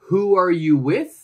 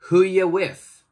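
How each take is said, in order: First: Every word is said fully and separately. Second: 'Are you' is joined into one short sound.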